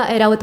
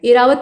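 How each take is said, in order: First: ऐरावत starting with open ai; wide first vowel in ऐरावत. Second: एरावत starting with a close e; wrong close e. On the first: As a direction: say ऐरावत as ai-raavat. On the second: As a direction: say एरावत as ay-raavat. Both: Shown as a demonstration. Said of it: "ए का प्रयोग करेंगे".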